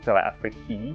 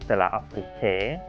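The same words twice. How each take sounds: First: The name is pronounced the English way. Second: The name is pronounced the German way. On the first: "I think in English it should be" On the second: "Like in German, I would want to say"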